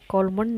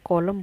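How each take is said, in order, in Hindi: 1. अंतिम n उच्चारित होता है। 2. अंतिम n मौन है। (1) "कॉलमन नहीं बोला हमने" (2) "कॉलम बोला है"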